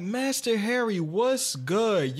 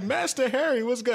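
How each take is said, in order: First: Raised excited greeting; hype greeting. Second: High excited greeting; hype greeting. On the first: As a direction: greet him eagerly. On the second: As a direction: call out his name with glee. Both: Retold or imitated. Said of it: "I'm like".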